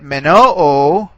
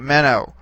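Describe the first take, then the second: First: The stress is on the last syllable. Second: The stress is on the first syllable. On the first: It means I will remain. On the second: It means I remain, in the present tense.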